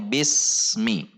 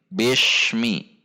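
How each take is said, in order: First: The middle consonant is a hissing s sound. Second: The middle consonant is a hushing sh sound. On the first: The speaker calls it right. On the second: The speaker calls it wrong. "namun dibaca shin"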